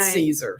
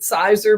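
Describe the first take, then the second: First: The first vowel sounds like 'ee'. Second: The first vowel sounds like 'eye'. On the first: The speaker calls it right. "but it's Caesar" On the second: The speaker calls it wrong. "it looks like you might want to pronounce it Sizer"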